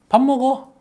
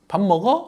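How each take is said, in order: First: It is said as an invitation to eat together. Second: It is said as a question.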